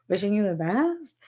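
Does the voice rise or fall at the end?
rise. It rises at the end like a question.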